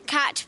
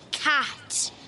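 First: The vowel is short. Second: The vowel is long. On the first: "cat is basically just cat" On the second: "but the A's longer, so it's like cat"

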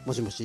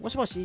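First: It is said in a low voice. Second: It is said an octave higher, brightly.

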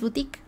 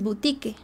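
First: It is pronounced the French way, like 'buteek'. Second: It is read letter by letter, Spanish style. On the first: The speaker calls it right. "lees boutique, que viene del francés" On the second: The speaker calls it wrong. "no lees boutique"

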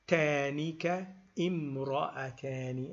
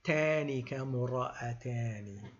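First: An extra 'i' vowel is sounded before 'mra'atani'. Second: The words join without the extra 'i' vowel. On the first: The speaker calls it wrong. "if we pronounce it tanika imra'atani and we give it a kasra, that is technically a mistake" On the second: The speaker calls it right. "then you have to skip that hamza"

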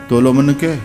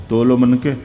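Both takes have the same delivery.

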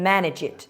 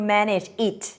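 First: The final g sound runs into the next word. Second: The words are said separately without linking. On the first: The speaker calls it right. "G จะไปลิงก์กับตัว I มันก็เลยกลายเป็น" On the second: The speaker calls it wrong. "ฝรั่งจะไม่พูดว่า"

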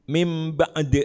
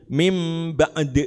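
No difference in how they are said.

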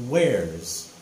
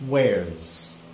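Both takes have the same delivery.

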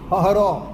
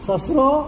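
First: Both consonants are breathy h sounds. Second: Both consonants are s sounds.

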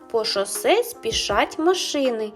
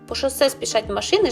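First: The phrase is spoken slowly. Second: The phrase is spoken fast. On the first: "Зараз я вам її прочитаю повільно" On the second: "як потрібно говорити швидше"

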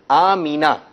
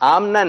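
First: An ee vowel separates the m and n. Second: The m and n sounds come together. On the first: The speaker calls it right. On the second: The speaker calls it wrong. "آمنا نہیں"

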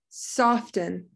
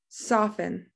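First: The T sound is pronounced in the middle. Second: The T sound is left out in the middle. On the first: The speaker calls it wrong. "the first time I said it, I said the T" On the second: The speaker calls it right. "We say soften, so that T is silent"

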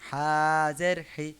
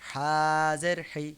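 The two takes are said the same way.

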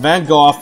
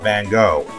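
First: The name is said the Dutch way. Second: The name is said the English way. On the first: The speaker calls it right. "it's pronounced Van Gogh" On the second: The speaker calls it wrong. "not Van Gogh"

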